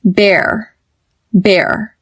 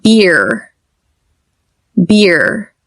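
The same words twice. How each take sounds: First: "Bear" with jaw dropped, mouth loose, rhymes with hair; open relaxed bear. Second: "Beer" with lips spread tight as in a fake smile. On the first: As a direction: let the jaw fall and say "Bear". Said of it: "relax your mouth completely". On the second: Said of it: "do a fake smile". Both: Shown as a demonstration.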